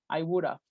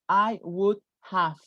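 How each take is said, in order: First: 'Have' is reduced to a short 'of' sound. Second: 'Have' is said as a full word. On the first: The speaker calls it right. "the have sounds like just an F" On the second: The speaker calls it wrong. "We never say that"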